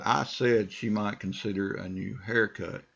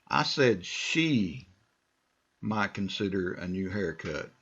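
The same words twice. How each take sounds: First: The stress is on "said". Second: The stress is on "she".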